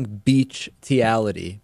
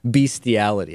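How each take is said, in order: First: The first syllable sounds like 'beach'. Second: The first syllable sounds like 'beast'. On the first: The speaker calls it wrong. "my pronunciation of it is actually beachtiality" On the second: The speaker calls it right. "the correct pronunciation is bestiality"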